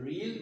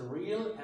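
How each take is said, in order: First: "real" as one long REEL; pure long ee in "real", no uh; no glide. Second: "real" as REE-uhl, gliding into the l; double glide. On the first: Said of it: "there is no glide at all". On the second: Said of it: "pronounce it as real". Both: Shown as a demonstration.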